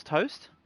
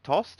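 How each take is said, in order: First: "Toast" said like toasted bread; "Toast", rhyming with most; Toast with long O. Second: "Tost" rhyming with lost; "Tost", without the oh glide of toast; Tost with short vowel. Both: Shown as a demonstration. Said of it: "or Tost, however you wanna say it".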